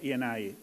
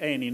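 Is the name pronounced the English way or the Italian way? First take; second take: English; Italian. First: The name is pronounced the English way. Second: The name is pronounced the Italian way. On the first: The speaker calls it wrong. "not Eni" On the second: The speaker calls it right. "I will name it Eni"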